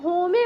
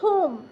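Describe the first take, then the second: First: The word ends with an extra vowel sound. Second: The word ends on the m sound. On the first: The speaker calls it wrong. "इसे जो है ना आप होमे मत पढ़िएगा" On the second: The speaker calls it right. "ई का अपना कोई उच्चारण नहीं होता है"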